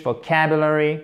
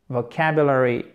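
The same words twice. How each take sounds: First: Said in the usual way. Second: VOCABULARY falling low at the end; intonation descendante. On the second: Shown as a demonstration. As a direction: let VOCABULARY drop, no question rise. («vocabulary» qui retombe à la fin) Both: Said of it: "On retombe à la fin".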